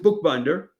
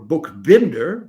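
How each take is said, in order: First: The name is pronounced the English way. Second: The name is pronounced the Czech way.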